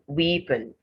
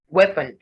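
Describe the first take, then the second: First: The first vowel is a long 'ee' sound. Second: The first vowel is a short 'eh' sound. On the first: The speaker calls it wrong. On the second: The speaker calls it right.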